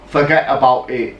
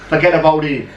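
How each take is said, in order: First: It is said in an English accent, clear t's. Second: It is said in a New York gangster accent.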